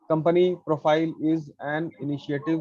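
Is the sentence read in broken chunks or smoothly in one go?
broken chunks. It is read in choppy pieces with breaks. The speaker calls it wrong. "तोड़ तोड़ के पढ़ो ... हाँ ऐसे नहीं"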